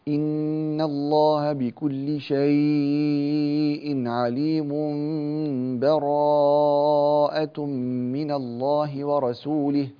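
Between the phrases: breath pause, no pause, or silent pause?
no pause. The phrases run together with no pause or breath. "هذا الوصل دون تنفس"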